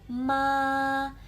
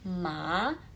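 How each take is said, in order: First: The pitch stays flat and level throughout. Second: The pitch rises straight upward throughout. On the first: "nada satu ma" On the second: "nada dua ma"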